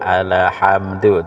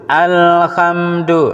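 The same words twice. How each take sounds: First: The L sound bounces with an extra release. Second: The L sound is held steady without bouncing. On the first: The speaker calls it wrong. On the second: The speaker calls it right.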